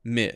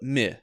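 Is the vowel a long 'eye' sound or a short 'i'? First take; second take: short i; short i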